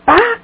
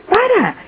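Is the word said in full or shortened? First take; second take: shortened; full. First: The word is cut to one syllable. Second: The word is said with both syllables. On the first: "pa en lugar de para" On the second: "en lugar de para"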